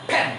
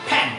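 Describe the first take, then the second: The two takes are said the same way.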